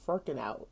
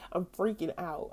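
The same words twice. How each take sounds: First: "freaking" garbled as "furking"; slip of the tongue. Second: Said in the usual way. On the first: Shown as a demonstration. Showing the word she nearly said, "freaking" mispronounced as "furking". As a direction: say "freaking" as "furking", the r after the vowel. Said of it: "I keep mixing up these words". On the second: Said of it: "I was gonna say freaking out".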